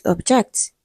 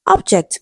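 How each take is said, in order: First: "object" as ob-JECT, rising; stress on second syllable. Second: "Object" as OB-ject, falling; stress on first syllable. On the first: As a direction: put the weight on JECT in "object". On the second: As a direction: punch OB in "Object". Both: Shown as a demonstration. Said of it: "We have so many examples".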